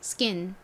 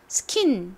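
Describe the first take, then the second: First: The k is a tense unaspirated sound. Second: The k is a strong aspirated sound. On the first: The speaker calls it right. "조금 된 소리처럼 세게 발음이 났어요. skin 이렇게요" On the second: The speaker calls it wrong. "스킨 이렇게 크 소리가 나는 게 아니라"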